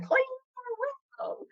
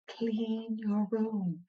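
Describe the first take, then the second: First: It is screamed loudly. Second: It is said softly and quietly.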